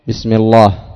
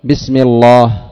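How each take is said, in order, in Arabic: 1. حرف اللام ثقيل ومفخم. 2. حرف اللام ثقيل ومفخم.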